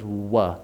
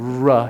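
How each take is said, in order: First: "wuh" with rounded lips in place of R; Elmer Fudd's W. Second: "ruh" with a full American R; full R sound. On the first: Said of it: "He's just rounding his lips". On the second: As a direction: say "ruh" with tongue up and lips rounded. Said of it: "Instead of saying". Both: Shown as a demonstration.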